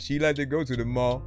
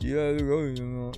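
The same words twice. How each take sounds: First: The words are said clearly and distinctly. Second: The words are slightly slurred and mumbled. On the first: "Say it right the first time" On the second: "can be then mumbled a little bit"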